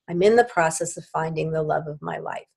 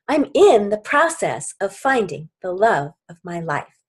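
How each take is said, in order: First: It is said flatly, without feeling. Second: It is said with feeling and emphasis.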